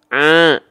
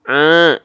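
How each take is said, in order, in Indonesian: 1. Sebagian bunyinya keluar melalui hidung. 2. Sebagian bunyinya keluar melalui hidung.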